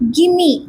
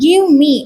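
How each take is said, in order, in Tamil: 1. சொற்கள் ஒன்றாக இணைந்து ஒரு குறுகிய சொல்லாக ஒலிக்கப்படுகின்றன. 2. சொற்கள் தனித்தனியாக முழுமையாகச் சொல்லப்படுகின்றன.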